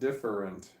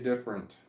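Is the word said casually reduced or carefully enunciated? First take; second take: enunciated; reduced. First: The word is said carefully, every syllable enunciated. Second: The word is said casually, with syllables reduced. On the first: This is the careful form the speaker rarely uses. "not different" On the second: This is how the speaker normally says it. "I say different"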